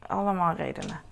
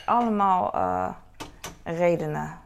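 First: Said in the usual way. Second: Allemaal punched loud, then a hesitant eh before redenen; emphatic allemaal. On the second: Shown as a demonstration. Shrugging off why the pool closed, loud stress on Allemaal. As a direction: lean hard on Allemaal, louder.

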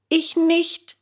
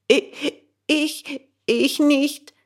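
First: Put-on high, earnest boy's insistence; protesting. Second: Put-on high, stuttering, frightened boy; stammering. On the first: Bengele firmly insists to the gendarme he didn't do it. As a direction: insist on innocence. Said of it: "beteuerte Bengele". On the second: Bengele stammers his denial to the gendarme. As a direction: stumble over the first word in fear. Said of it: "stotterte Bengele".

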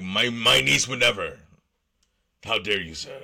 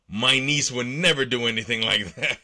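First: Hammed-up indignant uncle, louder; mock offended. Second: Mock-offended read, louder, half laughing. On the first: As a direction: clutch your pearls, how dare you sir. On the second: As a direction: play the indignant uncle while barely holding back a laugh. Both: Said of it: "the man replied in an offended voice".

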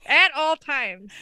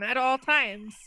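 First: "At all times" slow and louder, each word weighted; emphatic repeat. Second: Said in the usual way. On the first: Real, not acted. Telling cohost he must stay face down, "At all times" slowly emphasized.

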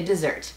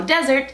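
First: "dessert" as duh-ZERT; "dessert" with weak start, strong ending; second-syllable stress. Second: "desert" as DEH-zert; "desert" front-stressed, like the sandy noun; first-syllable stress. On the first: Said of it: "se pronuncia casi igual que". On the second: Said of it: "deletrea como desert". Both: Shown as a demonstration.

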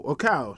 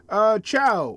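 First: Cow said with a hard k sound, "cow"; self-correcting to Cow; corrected name. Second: Chow said with a ch sound, "chow"; tentative first reading of Chow; first guess at the name. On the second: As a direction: reads the name Chow as "chow" rhyming with now. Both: Real, not acted.

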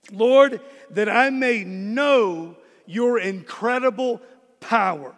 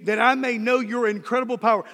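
First: Drawn out, each word weighed; slow, deliberate prayer line; slow prayerful read. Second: Fast, run-together restatement; fast throwaway restatement; quick repeat. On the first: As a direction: pray it slowly. Prayer verse read slowly, then repeated. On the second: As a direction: rattle it off. Same prayer line repeated quickly. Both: Shown as a demonstration.

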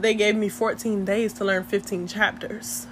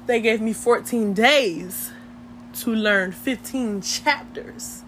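First: Said in the usual way. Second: "fourteen days" and "fifteen chapters" spelled out slowly; slow right down, weighting each word of "fourteen days" and "fifteen chapters"; emphatic repeat. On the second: Real, not acted. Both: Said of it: "Let me say it again".

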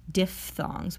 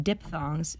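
First: Diphthongs said with an f sound, dif-thongs. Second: Diphthongs said with a p sound, dip-thongs; wrong p sound. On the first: Teacher shows the right way, diphthongs with an f. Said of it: "sound like a fancy speech pathologist". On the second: Teacher shows the wrong way, diphthongs with a p. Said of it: "Not pronounced diphthongs". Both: Shown as a demonstration.

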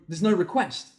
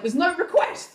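First: Said in the usual way. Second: High-pitched mock yell; calling back. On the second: Wife answers husband from the house, high yell.

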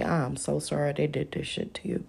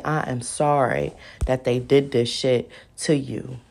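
First: Hushed, breathy apology; whispered sympathy. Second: Said in the usual way. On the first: Retold or imitated. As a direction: whisper it like a sorry lawyer. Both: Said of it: "He gonna say".

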